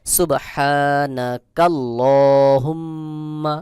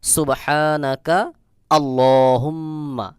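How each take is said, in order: First: Very slow, unbroken সুবহানাকাল্লাহুম্মা with long hummed mm; joined reading. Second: Full pause after সুবহানাকা, restart with a clear আ on আল্লাহুম্মা; slow recitation in two parts, সুবহানাকা, আল্লাহুম্মা; stopped reading. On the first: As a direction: link কা straight into ল্লা in সুবহানাকাল্লাহুম্মা. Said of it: "যদি আমি মিলিয়ে পড়ি". (সুবহানাকাল্লাহুম্মা মিলিয়ে, টেনে পড়া) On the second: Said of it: "থেমে পড়লাম". (সুবহানাকা-তে থেমে, আল্লাহুম্মা আলাদা করে) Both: Shown as a demonstration.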